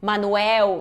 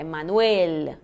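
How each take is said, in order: First: "Manuel" said "Manuéu", Brazilian style; final L as U. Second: "Manuel" slow and lower, held tongued L at the end; clearly pronounced L. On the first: Teacher showing students the wrong ending, L turned into U. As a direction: end "Manuel" on a U glide, no tongue L. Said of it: "som de U". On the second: Teacher correcting the U ending, slow clear final L. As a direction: finish "Manuel" with tongue touching for L. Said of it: "Tem que pronunciar bem esse L". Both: Shown as a demonstration.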